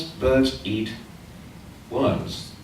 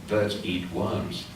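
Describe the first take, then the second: First: Said in the usual way. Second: Birds eat worms said slowly, each word a strong beat; every word of Birds eat worms stressed equally and evenly; three even beats. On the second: Shown as a demonstration. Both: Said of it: "Three strong syllables".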